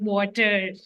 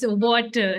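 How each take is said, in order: First: The final R sound is pronounced. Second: The final R sound is dropped. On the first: The speaker calls it wrong. "not water" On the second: The speaker calls it right. "how it's water"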